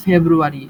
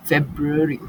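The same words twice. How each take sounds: First: ফেব্রুয়ারি shown as the wrong Bengali-style February. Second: ফেব্রুয়ারি said in English as FEB-ruh-ree, with a clear f and the middle vowel dropped; ফেব্রুয়ারি as a crisp English FEB-ree; correct February. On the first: Teacher shows students the wrong way to say ফেব্রুয়ারি, Bengali-style. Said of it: "আমরা বলি না ফেব্রুয়ারি". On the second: Teacher shows students the right ফেব্রুয়ারি, English-style. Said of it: "এটা হবে না". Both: Shown as a demonstration.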